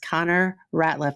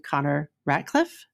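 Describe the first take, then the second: First: The surname has no k sound before the l. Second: The surname has a k sound before the l. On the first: The speaker calls it right. "let me just clean that up right now and say this is Connor Ratliff" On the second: The speaker calls it wrong. "I'm pretty sure I called you Connor Ratcliffe"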